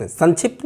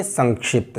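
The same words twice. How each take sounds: First: "संक्षिप्त" said as san-chhipt; n and chh replace ng and ksh in "संक्षिप्त"; mispronunciation with n. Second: "संक्षिप्त" said as sank-shipt, ng before ksh; velar nasal. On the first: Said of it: "नहीं बोलते". ("संक्षिप्त" को सन्छिप्त जैसे बोलना) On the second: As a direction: keep the ng and full ksh in "संक्षिप्त". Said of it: "इस तरह से हम बोलते हैं". ("संक्षिप्त" में ङ और क्ष की ध्वनि) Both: Shown as a demonstration.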